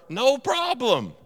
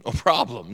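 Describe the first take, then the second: First: No problem drawn out slow, pitched much higher; emphatic slow no problem. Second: Said in the usual way. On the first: Shown as a demonstration. Preacher hitting the punchline of the list, problem stretched high.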